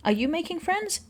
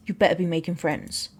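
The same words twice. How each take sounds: First: High-pitched question, rising on "friends"; eager question. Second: Dropped pitch, mock-stern parental warning; mock-stern order. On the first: Acted. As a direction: ask "making friends" brightly high, ending upward. Dad asks, then turns it to order. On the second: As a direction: drop low and order it like a playful dad. Dad turns question into mock order.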